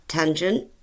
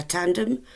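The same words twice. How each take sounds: First: Said in the usual way. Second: "tandem" said in place of "tangent"; playfully quoting a friend's mix-up of "tandem" for "tangent"; friend's malapropism. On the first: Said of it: "or as my friend would say". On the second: Retold or imitated. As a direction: say "tandem" as if it were the right word for "tangent". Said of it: "as my friend would say".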